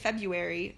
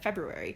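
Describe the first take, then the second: First: The word is said without following its spelling. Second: The word is said following its full spelling. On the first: "I know you can say February" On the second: "I'm imagining how it's spelled"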